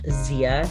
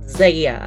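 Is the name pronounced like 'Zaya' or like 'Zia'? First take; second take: Zia; Zaya. First: The name is said like 'Zia'. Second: The name is said like 'Zaya'. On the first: The speaker calls it wrong. "it is not Zia" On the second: The speaker calls it right. "It is Zaya"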